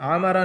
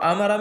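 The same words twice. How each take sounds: First: It begins with a deep throaty ain sound. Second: It begins with a light glottal stop. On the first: The speaker calls it wrong. "आमरा नहीं है" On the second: The speaker calls it right. "आमरा में हमजा है"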